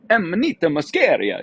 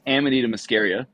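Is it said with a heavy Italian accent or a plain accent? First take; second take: Italian accent; plain. First: It is said in a heavy Italian accent. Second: It is said in a plain American accent.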